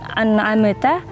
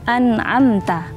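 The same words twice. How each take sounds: First: The m bounces with an echoing release. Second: The m is held smoothly without bouncing. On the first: The speaker calls it wrong. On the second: The speaker calls it right.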